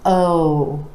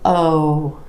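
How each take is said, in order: First: The vowel is long with well-rounded lips. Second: The same.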